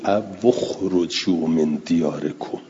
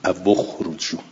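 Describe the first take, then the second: First: «او اخرجوا» with waw taking damma, said slowly; recited with damma. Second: «او اخرجوا» repeated at normal pace, waw with u; damma on waw. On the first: (تلاوت «او اخرجوا» با ضمهٔ واو) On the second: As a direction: repeat the joined «او اخرجوا» briefly. (تکرار «او اخرجوا» با ضمه) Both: Shown as a demonstration. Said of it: "پس اینجا هم بخونیم".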